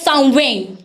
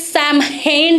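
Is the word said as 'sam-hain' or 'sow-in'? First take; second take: sow-in; sam-hain. First: It is said as sow-in, with no m sound. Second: It is said as sam-hain, following the letters. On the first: The speaker calls it right. "इसकी प्रोनाउंसिएशन जो है वह साउवेन" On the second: The speaker calls it wrong. "देखने में है सैमहेन लिखा जा लग रहा है"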